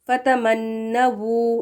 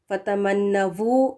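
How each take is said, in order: First: The final syllable begins with w. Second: The final syllable begins with v. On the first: The speaker calls it right. "डब्ल्यू के साथ सही है" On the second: The speaker calls it wrong. "वी लगाकर पढ़ें ... गलत है"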